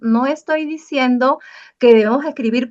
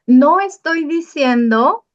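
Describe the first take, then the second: First: Said in the usual way. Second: Slow, higher and louder, no punched; emphatic warning. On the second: Shown as a demonstration. Teacher warning students not to confuse the rule. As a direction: warn the class slowly and firmly. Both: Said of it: "ojo, no nos confundamos".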